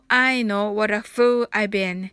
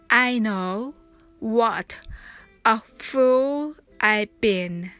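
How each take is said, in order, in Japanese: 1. このフレーズは速いペースで話されています。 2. このフレーズはゆっくりしたペースで話されています。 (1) "早く言ってみましょう" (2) "ゆっくり発音してみましょう"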